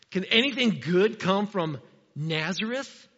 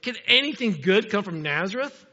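First: Slow, scornful acted question; prejudiced doubt. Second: Exclaimed question. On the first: Nathanael scorning Nazareth to Philip, prejudiced doubt. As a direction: draw out the doubt about the town. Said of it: "a very prejudiced comment". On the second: A narrator's reading. Nathanael doubting Philip's news, exclaimed. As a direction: read as a mild exclamation, rising at the end. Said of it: "exclaimed Nathanael".

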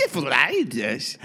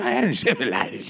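First: Slow Encephalitis, each syllable hit; deliberate slow Encephalitis. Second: Encephalitis stretched out, slurred; Liza's encephalitis. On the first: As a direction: punch every syllable of Encephalitis. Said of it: "Robbie does it ... hit each syllable". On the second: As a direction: drag out encephalitis like Liza. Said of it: "four-syllable word to a ten syllable". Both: Retold or imitated.

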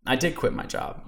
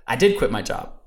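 First: Softly whispered echo of the line; hushed repeat. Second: Said in the usual way. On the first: Real, not acted. To listeners, repeating it as a soft whispered echo. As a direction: let it fall to a near whisper. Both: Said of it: "repeats the line for emphasis".

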